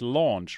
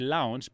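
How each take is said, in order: First: The vowel sounds like 'aw' in law. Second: The vowel sounds like 'ow' in cow. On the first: The speaker calls it right. "but it's launch" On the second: The speaker calls it wrong. "I always say launch"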